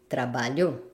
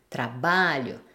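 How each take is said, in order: First: The stress is on the last syllable. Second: The stress is on the second-to-last syllable. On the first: Someone worked, in the past. "la syllabe forte sur la dernière syllabe" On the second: I work, in the present. "syllabe forte qui est sur l'avant-dernière syllabe"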